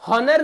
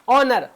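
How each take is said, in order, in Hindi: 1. शब्द की शुरुआत में "h" की आवाज़ साफ़ सुनाई देती है। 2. शब्द स्वर से शुरू होता है, इसमें "h" की आवाज़ नहीं है। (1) "हॉनर नहीं" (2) "ऑनर पढ़ेंगे"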